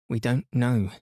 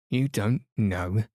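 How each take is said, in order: First: Said in the usual way. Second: "You don't know?" with a questioning rise on YOU; incredulous echo question. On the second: A narrator's reading. Creature echoing the children's admission, incredulous.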